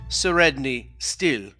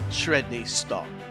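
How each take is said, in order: First: The name has an extra vowel after the S. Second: The name starts with a cluster, no extra vowel. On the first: This is the older, traditional pronunciation. "traditionalists pronounce it" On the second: This is the simpler pronunciation many now use. "the simplified pronunciation"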